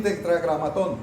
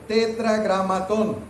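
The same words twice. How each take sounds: First: Said in the usual way. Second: "Tetragramatón" said slowly, syllable by syllable, pitched higher; "Tetragramatón" drawn out slow and high, stressed on the last syllable; careful pronunciation. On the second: Shown as a demonstration. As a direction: sound out "Tetragramatón" slowly for a class. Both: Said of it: "Se oye muy feo la primera palabra".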